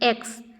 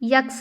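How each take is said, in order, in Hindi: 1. यह सीधे स्वर से शुरू होता है। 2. यह य की ध्वनि से शुरू होता है।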